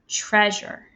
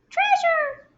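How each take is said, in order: First: It is said in a normal speaking voice. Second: It is said in a tiny, squeaky voice. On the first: "Say the word treasure with me" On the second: "Mouse voice it"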